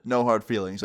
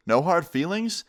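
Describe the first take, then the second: First: Said in the usual way. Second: NO HARD FEELINGS thrown back higher as a question; incredulous echo. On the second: Retold or imitated. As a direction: repeat "No hard feelings" in indignant disbelief. Angry dad throws words back.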